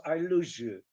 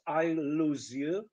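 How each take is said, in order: First: "I lose you" said as "I loo-zhoo"; "I lose you" run together with a zh; merged consonants. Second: "I lose you" slow, z and y separate; three careful words, "I lose you"; slow "I lose you" with a clean z; slow English. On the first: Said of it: "It becomes". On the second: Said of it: "it's slow English". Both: Shown as a demonstration.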